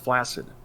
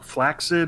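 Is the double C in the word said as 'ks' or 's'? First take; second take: s; ks. First: The double C sounds like a plain s. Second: The double C sounds like ks. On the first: The speaker calls it wrong. "everybody and their brother pronounces" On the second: The speaker calls it right. "that's the proper use"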